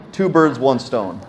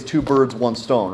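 First: Two birds, one stone spelled out slowly, each word weighted; slowed-down proverb for emphasis; slow and deliberate. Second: Said in the usual way. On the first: Shown as a demonstration. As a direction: lean on Two, then let it land slowly.

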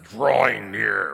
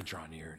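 First: "drawing near" stretched slow and loud; exaggerated DRAWING. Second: Said in the usual way. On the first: Shown as a demonstration. Teacher mocking an overdone approach to the altar, "drawing near" loud and drawn out. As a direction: haul out "drawing near" in a big drawn-out swell.

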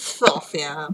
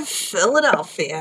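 First: Philadelphia squeezed to Fill-fia, middle syllables dropped; Philly accent. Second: Said in the usual way. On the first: Shown as a demonstration. Host naming her city the way locals say it. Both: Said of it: "otherwise known as".

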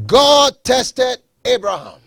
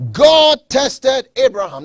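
First: Slow emphatic repeat. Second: Higher and louder, punching God; preached emphasis. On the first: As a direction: drive the point home slowly. Repeats point slower. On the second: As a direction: ring it out from the pulpit. Preacher stresses key point. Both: Acted.

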